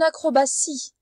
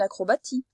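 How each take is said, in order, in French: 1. Le 'ti' se prononce avec un son S. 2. Le 'ti' se prononce avec un son T. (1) "ça fait le son S" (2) "On ne dit pas"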